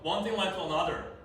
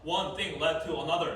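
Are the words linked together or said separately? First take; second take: linked; separately. First: The words run together with linked sounds. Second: Each word is said separately, without linking. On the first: The speaker calls it right. "연음이 돼야 되거든요. 그럼 어떻게 읽어요?" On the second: The speaker calls it wrong. "단어 단어 단어 단어잖아요. 이거는 연음 발음이 안 된 거예요"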